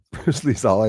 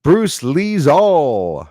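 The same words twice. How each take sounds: First: Laughing. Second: Slow drawn-out. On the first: Real, not acted. Repeats mocked name laughing. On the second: Pretend. Reading his mocked name.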